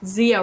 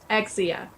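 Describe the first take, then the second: First: The name starts with a 'z' sound. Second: The name starts with an 'eks' sound. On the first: The speaker calls it wrong. "many many people say Ex- Zia Rose with the Z" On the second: The speaker calls it right. "That's the way I pronounce it"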